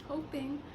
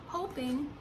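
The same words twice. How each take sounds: The two takes are said the same way.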